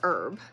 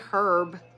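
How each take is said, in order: First: The word begins with a silent H. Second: The word begins with an audible H sound. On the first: It refers to the plant. "Otherwise, it's herb" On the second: It refers to a person's name. "We only say herb if it's a name"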